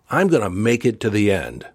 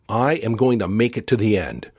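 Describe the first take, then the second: First: It is said with strong emphasis and feeling. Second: It is said plainly, without extra feeling.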